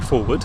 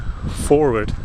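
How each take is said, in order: First: The word is said in a British English accent. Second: The word is said in an attempted American accent. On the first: "it goes English at the end because we say forward" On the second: "That's a hard word if you haven't got an American accent"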